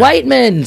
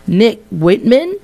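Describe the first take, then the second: First: Whiteman said with a long i, like white, higher and louder; corrected name. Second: Whitman said with a short i, like wit; mispronounced name. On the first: Host correcting himself to guest, Whiteman with a long white sound. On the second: Host welcoming guest, saying Whitman with a short wit sound. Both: Real, not acted. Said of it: "It's, uh, Nick Whiteman".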